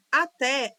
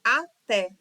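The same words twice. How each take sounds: First: Said in the usual way. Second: "Até" split into a-té with a gap; syllable by syllable. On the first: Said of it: "por possuir uma sílaba". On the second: Shown as a demonstration. Teacher proving it has two syllables, "Até" syllable by syllable. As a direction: say "Até" as two separate beats. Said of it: "é dissílaba".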